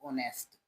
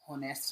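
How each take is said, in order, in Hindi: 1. यह शब्द सीधे एक स्वर ध्वनि से शुरू होता है। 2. यह शब्द स्पष्ट H ध्वनि से शुरू होता है। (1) "एच इसमें साइलेंट रहता" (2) "होनेस्ट नहीं पढ़ते"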